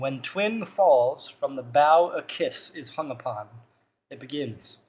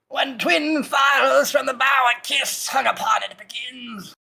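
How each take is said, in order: First: It is spoken in the speaker's normal voice. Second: It is spoken in a put-on old-woman voice.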